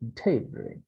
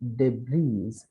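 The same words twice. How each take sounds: First: Not every written letter is sounded out. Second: Every written letter is sounded out. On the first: The speaker calls it right. "but it is debris" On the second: The speaker calls it wrong. "If we read these words letter by letter ... incorrect"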